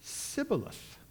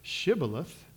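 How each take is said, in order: First: The word begins with an 's' sound. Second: The word begins with an 'sh' sound. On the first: The speaker belongs to the enemy group. The speaker calls it wrong. "Ephraimites couldn't say the SH sound" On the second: The speaker belongs to the group being tested for. The speaker calls it right. "say the word Shibboleth"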